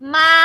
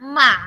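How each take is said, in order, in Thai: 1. พยางค์นี้ออกเสียงด้วยวรรณยุกต์ที่หนึ่ง 2. พยางค์นี้ออกเสียงด้วยวรรณยุกต์ที่สาม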